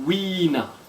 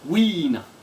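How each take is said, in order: First: The name starts with a breathy w sound. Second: The name starts with a breathy w sound.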